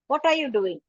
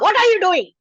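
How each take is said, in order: First: It is said in a soft, gentle voice. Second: It is said in a harsh, scolding voice.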